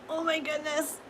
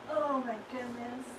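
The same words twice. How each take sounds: First: Groaning as she gets up stiffly; aching groan while standing; sore muscles. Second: Sore, sinking into the effort; sore muscles. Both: Real, not acted. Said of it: "Oh my gosh, I'm so sore".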